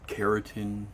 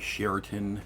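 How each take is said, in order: First: It does not sound like the hotel name. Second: It sounds like the hotel chain name.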